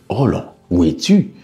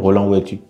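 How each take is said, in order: First: The voice rises at the end like a question. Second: The voice stays flat or falls at the end. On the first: The speaker calls it right. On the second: The speaker calls it wrong. "On va pas dire"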